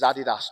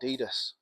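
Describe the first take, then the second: First: The name is pronounced the British way. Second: The name is pronounced the American way. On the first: The speaker calls it right. "It is Adidas" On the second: The speaker calls it wrong. "not Adidas"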